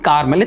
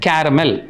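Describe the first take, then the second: First: It is said with two syllables, 'kar-mel'. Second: It is said with three syllables, 'ke-ra-mel'. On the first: The speaker calls it wrong. "It's not கார்மல்" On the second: The speaker calls it right. "It's கேரமல்"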